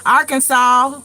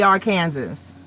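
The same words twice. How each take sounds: First: Arkansas as "AR-kin-saw", rising at the end; real country Arkansas. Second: Arkansas said as "ar-KAN-zus"; alternative pronunciation. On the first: Showing how it's coming out, Arkansas as "Arkansaw". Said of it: "It's coming out real country". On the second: Offering the other way, Arkansas rhyming with Kansas. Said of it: "or it's gonna be". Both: Shown as a demonstration.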